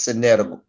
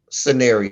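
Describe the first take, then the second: First: Scenario stumbled into "sce-net-o"; mispronounced scenario. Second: Said in the usual way. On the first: Real, not acted. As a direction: trip over scenario, a t replacing the r. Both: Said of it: "Go to hell, really be scenario".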